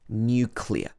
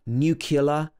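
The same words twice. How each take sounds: First: The word begins with a 'new' sound. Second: The word begins with a 'nuc' sound. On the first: The speaker calls it right. "it should be nuclear" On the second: The speaker calls it wrong. "a lot of people will say nuc nuclear"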